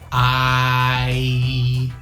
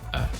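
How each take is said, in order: First: The word is said with a full vowel. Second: The word is said as a short weak vowel. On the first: "we don't have to say I" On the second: "It's more like uh"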